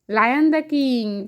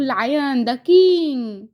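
First: Lion, the king drawn out very slowly; slow teaching repeat. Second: Said in the usual way. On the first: Shown as a demonstration. Mother repeating the phrase for her toddler, very slow. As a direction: stretch each word so the child can copy. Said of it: "slow repeat for child". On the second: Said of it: "repeats for child".

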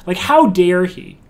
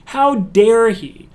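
First: Indignant. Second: "How dare he?" slowed way down, higher and louder; outraged. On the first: Indignant at the pushy solicitor. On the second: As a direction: draw out every word of "How dare he?" in outrage. Repeats it more strongly. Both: Real, not acted.

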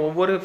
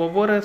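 Both takes have the same delivery.

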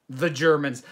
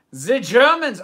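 First: Said in the usual way. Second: Higher, much louder title call-out; excited exclamation. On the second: Acted. Host repeats the Fawlty Towers episode title, excited exclamation. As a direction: burst out with the title, loud and raised.

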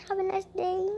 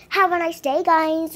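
First: Soft goodbye. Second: Clearly louder, firmer farewell; full-voiced sign-off; louder goodbye. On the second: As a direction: say it out to the viewers, louder. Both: Real, not acted. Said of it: "repeated louder".

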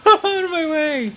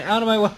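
First: Much higher, louder yell to clear the way; full-throated yell at the rivals; real excited shout. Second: Loud, higher call to clear the road. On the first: Racing gamer yells at rival trucks: high excited shout. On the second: Racing gamer warns rival trucks: loud call. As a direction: warn the trucks ahead, getting louder. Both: Real, not acted. Ramming other trucks in race.

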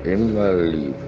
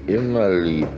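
The two takes are said the same way.

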